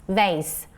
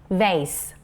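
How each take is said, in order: Both takes have the same delivery.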